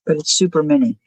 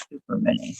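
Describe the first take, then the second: First: Said in the usual way. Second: Soft breathy whisper on the repeat. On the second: Real, not acted. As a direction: whisper it for emphasis. Repeats super mini, whispered.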